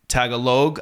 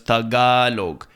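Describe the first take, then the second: First: The stress falls on a different syllable. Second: The stress falls on the 'ga' syllable. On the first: "the stress is in a different spot when English speakers say it" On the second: "Maybe not on the A, but on the G A"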